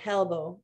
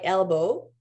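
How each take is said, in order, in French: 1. Le mot commence par un son H ajouté. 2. Le mot commence directement par une voyelle. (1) "les gens vont dire elbow" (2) "ça commence par E"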